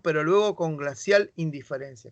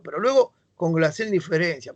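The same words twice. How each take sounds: First: It is read in a plain, ordinary voice. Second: It is read in a put-on snobbish upper-class voice.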